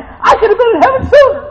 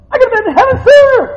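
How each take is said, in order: First: High loud call, falling on sooner; exultant cry. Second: Quick, high, loud rush to sooner; faster exultant repeat. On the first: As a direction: shout it joyfully. Repeated heaven line. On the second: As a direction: rattle it off. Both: Real, not acted.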